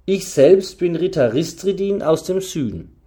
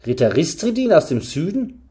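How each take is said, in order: First: Said in the usual way. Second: "Ritter Ristridin aus dem Süden" rising as a question; questioning echo. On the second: A narrator's reading. Hearer repeats the name, astonished.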